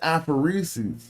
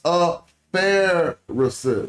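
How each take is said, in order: First: The second syllable sounds like 'for'. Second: The second syllable sounds like 'fair'. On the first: The speaker calls it wrong. "I keep saying aphoresis" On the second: The speaker calls it right. "It's a Pharisis"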